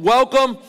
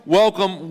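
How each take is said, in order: First: Big high welcome. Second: Said in the usual way. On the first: Shown as a demonstration. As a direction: WELCOME lifted high and a bit louder. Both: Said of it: "But welcome, welcome, welcome".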